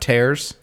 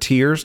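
First: The vowel sounds like the one in 'air'. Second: The vowel sounds like the one in 'ear'. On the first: It refers to ripping. The speaker calls it wrong. "not tears" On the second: It refers to crying. The speaker calls it right. "All of these are the word tears"

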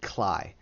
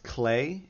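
First: The vowel sounds like the one in 'eye'. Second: The vowel sounds like the one in 'day'. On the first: The speaker calls it wrong. "I always want to pronounce it Cly" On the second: The speaker calls it right. "it is pronounced Clay"

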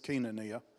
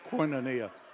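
First: It is said the Greek way. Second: It is said with a Southern US accent.

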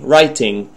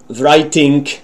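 First: The ending is said with an ng sound. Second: The ending is said with a k sound. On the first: The speaker calls it right. "You should pronounce it" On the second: The speaker calls it wrong. "pronounce the ing sound as k or even g"

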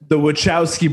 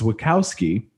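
First: The middle of the name has a 'ch' sound. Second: The middle of the name lacks a 'ch' sound. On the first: The speaker calls it right. "Pardon me" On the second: The speaker calls it wrong. "always thought that it was Wachowski"

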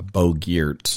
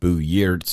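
First: The name is said the American way. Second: The name is said the Swedish way.

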